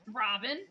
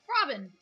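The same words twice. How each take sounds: First: The name is said at normal volume. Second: The name is said loudly, like a shout.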